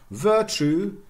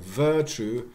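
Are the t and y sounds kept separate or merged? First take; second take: separate; merged. First: The t and y sounds stay separate. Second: The t and y merge into a ch sound. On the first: This is the conservative form. "conservative, tu, no J coalescence" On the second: This is the progressive form. "very progressive"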